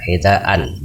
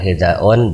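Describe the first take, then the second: First: The word ends in -an. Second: The word ends in -un. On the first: The speaker calls it right. "Maka harus nasab hidaan" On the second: The speaker calls it wrong. "bukan hidaun"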